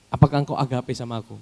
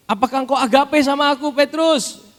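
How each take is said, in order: First: Said in the usual way. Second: High, loud pleading question; preached question. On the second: Acted. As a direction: lift it high and loud over the congregation. Jesus asks again, preached. (pertanyaan yang dikhotbahkan tinggi dan keras)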